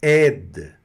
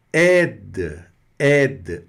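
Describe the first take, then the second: First: Aide, ai as è; French aide. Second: Aide with open è and d end; French aide. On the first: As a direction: aide said loud. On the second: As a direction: aide clearly. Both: Shown as a demonstration. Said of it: "A mais I é".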